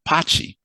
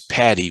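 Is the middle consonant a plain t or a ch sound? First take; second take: ch; t. First: The middle consonant is a ch sound. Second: The middle consonant is a plain t sound. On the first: "which they pronounce as Pachi" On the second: "Patricia becomes Patty"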